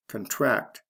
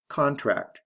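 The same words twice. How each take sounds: First: "Contract" as the verb con-TRACT; stress on second syllable. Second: "contract" as the noun CON-tract; stress on first syllable. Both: Shown as a demonstration. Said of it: "Notice the stress changes in the same way".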